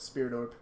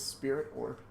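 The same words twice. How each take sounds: First: The words are enunciated in a normal, plain way. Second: The words are enunciated in an exaggerated, odd way. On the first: "Or just spirit orb" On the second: "Weird pronunciation is optional. Or weird enunciation"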